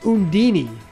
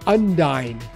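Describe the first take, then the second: First: The name ends with a 'dee-nee' sound. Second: The name ends with a 'dine' sound. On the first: "they pronounced it Undini" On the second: "I always called her Undyne"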